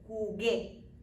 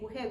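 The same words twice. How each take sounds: First: The g is a hard g sound. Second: The g is soft, like a breathy h. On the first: The speaker calls it right. "we say" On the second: The speaker calls it wrong. "instead of saying"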